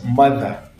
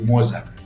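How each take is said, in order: First: The middle consonant is a voiced th. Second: The middle consonant sounds like a z. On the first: The speaker calls it right. "It's mother" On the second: The speaker calls it wrong. "You should not say mother or mother or moza"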